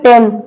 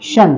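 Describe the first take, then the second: First: The ending is pronounced with a t sound. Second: The ending is pronounced with a sh sound. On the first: The speaker calls it wrong. "तुम्ही वाचताना ह्याला टीओएन वाचतील मुलं" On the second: The speaker calls it right. "या टी आय चा उच्चार होतो शन"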